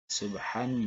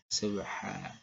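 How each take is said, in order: First: The word ends with a short vowel plus n. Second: The word ends with a lengthened vowel, no n.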